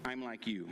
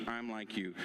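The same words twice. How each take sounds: The two takes are said the same way.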